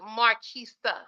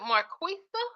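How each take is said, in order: First: The middle consonant is a plain K sound. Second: The middle consonant is a KW sound. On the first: "like the K sound, the K E sound" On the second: "like the Q W sound"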